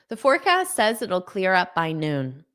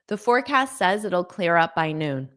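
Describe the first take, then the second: No difference in how they are said.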